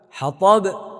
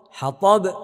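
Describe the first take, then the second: Both takes have the same delivery.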